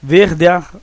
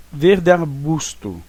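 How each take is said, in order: First: "Verde ar-" with "ar" split off and pushed louder; "Verde ar-" said separately, the gramatical way; syllables kept apart. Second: Slow "verde arbusto" with "de" and "ar" merged into one syllable; "verde arbusto" blended as one poetic syllable; syllables run together. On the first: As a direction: break "Verde" from "ar-" with a clear gap. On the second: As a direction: glide "verde" straight into "arbusto". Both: Shown as a demonstration. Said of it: "Você pronuncia tudo junto".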